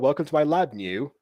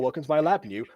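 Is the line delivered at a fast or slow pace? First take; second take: slow; fast. First: The line is delivered at a slow pace. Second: The line is delivered at a fast pace. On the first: The speaker calls it wrong. "they need to be like paced a little bit faster" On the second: The speaker calls it right. "speed that up so it's actually funny"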